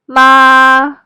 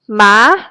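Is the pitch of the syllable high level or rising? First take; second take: high level; rising. First: The pitch stays high and level. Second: The pitch starts mid and rises. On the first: "The first tone is high and flat tone" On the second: "Start in the middle of your voice and go up. It's a rising tone"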